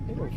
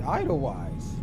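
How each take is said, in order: First: The first syllable sounds like 'ay'. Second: The first syllable sounds like 'eye'. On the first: The speaker calls it right. "It's it sounds like A as in A Y" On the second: The speaker calls it wrong. "I would have said Idlewise"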